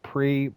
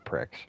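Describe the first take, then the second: First: The word ends in a vowel with no 'ks'. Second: The word ends with a clear 'ks' sound. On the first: This is how most people say it. "everyone pronounces it Pre" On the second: It is said this way as a joke. "I find the humor in this. It's Pricks"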